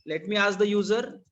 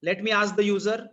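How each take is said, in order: Both takes have the same delivery.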